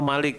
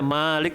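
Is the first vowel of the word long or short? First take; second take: short; long. First: The vowel after the m is kept short. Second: The vowel after the m is drawn out long. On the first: "memendekkan mim" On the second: "dengan memanjangkan mim"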